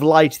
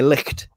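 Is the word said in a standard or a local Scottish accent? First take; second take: standard; local Scottish. First: It is said with a standard English pronunciation. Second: It is said with a local Scottish 'ch' sound.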